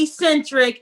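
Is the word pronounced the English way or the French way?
English. The word is pronounced with English sounds. The speaker calls it wrong. "Don't say eccentric"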